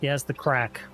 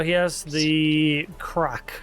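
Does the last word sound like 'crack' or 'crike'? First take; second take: crack; crike. First: The last word has a short 'a' vowel, like crack. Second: The last word has an 'eye' vowel, like crike. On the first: The speaker calls it right. "supposed to be crack" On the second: The speaker calls it wrong. "that's supposed to be crack, not crike"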